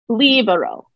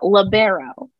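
First: The stress is on the first syllable. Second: The stress is on a later syllable. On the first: The speaker calls it right. "they like to place emphasis on the first syllable" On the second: The speaker calls it wrong. "Not libero"

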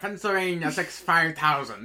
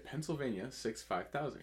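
First: It is said in a transatlantic accent. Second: It is said in a plain everyday accent.

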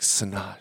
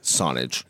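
First: The name is pronounced in a French-like way. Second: The name is pronounced in an English-like way. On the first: "you say how to pronounce it. Almost a French way" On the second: "I say it in like an English way"

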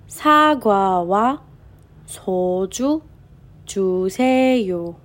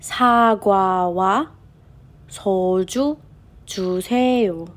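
Both takes have the same delivery.

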